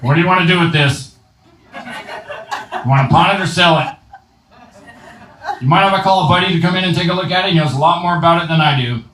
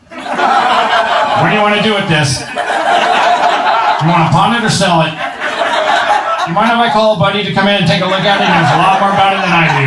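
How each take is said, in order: First: Strained Rick impression. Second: Rick straining. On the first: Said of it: "He's always like this". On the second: Retold or imitated. Comedian imitating Rick with a girl, strained and laughing. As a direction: play Rick pushing like he needs the toilet. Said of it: "He gets down there".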